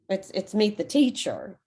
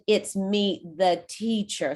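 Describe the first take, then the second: First: It is said at a normal pace. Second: It is said slowly and deliberately.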